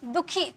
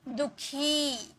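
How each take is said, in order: First: The final vowel is short and quick. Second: The final vowel is drawn out longer. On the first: "इसे बहुत तुरंत में पढ़ा जाता है, दुखी दुखी दुखी तुरंत में" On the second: "उसे थोड़ा लंबा में पढ़ा जाता है"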